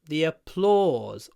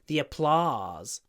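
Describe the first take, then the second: First: The main vowel is a long rounded 'aw'. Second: The main vowel is an open unrounded 'ah'. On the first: "Or, or" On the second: "Or American English, ah"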